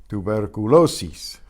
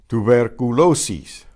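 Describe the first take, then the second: The two takes are said the same way.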